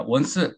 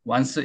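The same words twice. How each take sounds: First: "once" as Korean won-seu; "once" in two Korean syllables; Korean-style pronunciation. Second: "once" as one syllable, wahns; "once" without a vowel after the s; English pronunciation. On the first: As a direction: say "once" with a Korean o and an added eu after the s. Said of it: "이렇게 발음이 되지 않고". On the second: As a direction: say "once" with an open wah and a bare final s. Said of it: "이렇게 발음이 되지 않고 once". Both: Shown as a demonstration.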